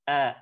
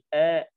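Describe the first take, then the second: First: The sound is released openly out of the mouth. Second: The sound is muffled and held in the throat. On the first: The speaker calls it right. "tapi A, A, dikeluarkan" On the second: The speaker calls it wrong. "jangan sampai suara itu dipendam"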